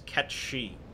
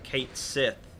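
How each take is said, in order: First: The name sounds like 'ketchy'. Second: The name sounds like 'kate sith'. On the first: The speaker calls it right. "It is it is Ketchi" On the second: The speaker calls it wrong. "it's not pronounced Kate Sith"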